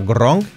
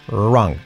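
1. La R no se pronuncia como una R inglesa. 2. La R se pronuncia como una R inglesa.

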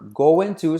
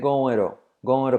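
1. 'Going to' se dice completo. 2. 'Going to' se reduce a una forma más corta.

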